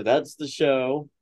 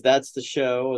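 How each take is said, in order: First: "that's the show" stretched out slowly; catchphrase sign-off. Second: Said in the usual way. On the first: Shown as a demonstration. Host signing off with the usual line, slow drawn-out catchphrase. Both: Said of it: "As we like to say".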